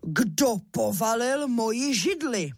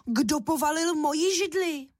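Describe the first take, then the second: First: Papa bear growling at his toppled chair; lightly voiced gruff father bear; big papa bear. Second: Higher cross mother-bear voice; mama bear scolding whoever knocked it over; mother bear calling out, annoyed; mama bear shouting. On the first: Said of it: "rozkřičel svým silným medvědím hlasem". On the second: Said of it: "rozkřičela hlasem medvědí maminky". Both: A narrator's reading.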